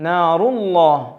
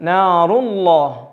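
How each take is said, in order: The two takes are said the same way.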